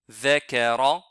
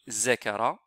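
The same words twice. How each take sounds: First: The word begins with a soft th sound. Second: The word begins with a buzzing z sound. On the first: The speaker calls it right. "c'est the, the, zakara" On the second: The speaker calls it wrong. "ni zakara"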